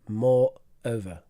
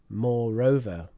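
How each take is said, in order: First: The words are said separately, one by one. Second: The words run together smoothly without a break. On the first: The speaker calls it wrong. "you said it without the linking" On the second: The speaker calls it right. "so the linking is"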